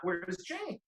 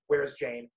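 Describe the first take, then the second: First: It is said like a question. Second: It is said flat, like a statement. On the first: It asks where someone is. "not a question" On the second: It is the name, not an actual question. "Your name is a statement"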